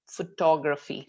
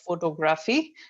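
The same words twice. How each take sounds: First: The stress is on the second syllable. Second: The stress is not on the second syllable. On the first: The speaker calls it right. "the stress is in the middle three letters. So, T O G, tog" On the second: The speaker calls it wrong. "that's not the correct pronunciation"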